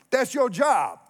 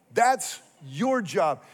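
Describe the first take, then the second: First: Loud, high declaration; emphatic. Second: Slow, weighty restatement; slow repeat. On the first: Pastor telling the church their calling, loud and emphatic. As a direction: proclaim it to the congregation. Pastor drives home the point. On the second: Pastor pressing the point home to listeners, slow and deliberate. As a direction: lay each word down slowly. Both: Real, not acted.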